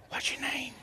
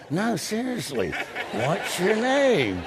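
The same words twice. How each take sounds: First: Hushed, voiceless whisper; secretive whispered question. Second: High, slow, drawn-out insistent plea; mock-earnest repeated question, voiced high. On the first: Retold or imitated. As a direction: whisper it discreetly, barely audible. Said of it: "I whispered, I said". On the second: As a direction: stretch it out, pitched up, comically desperate. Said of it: "he thought I was kidding".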